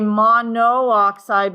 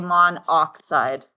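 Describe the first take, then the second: First: Both o vowels are pronounced before oxide. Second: One o vowel is dropped before oxide. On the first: The speaker calls it wrong. "We don't say monooxide" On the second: The speaker calls it right. "We say monoxide"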